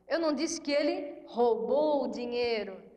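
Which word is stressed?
roubou. The stress is on "roubou".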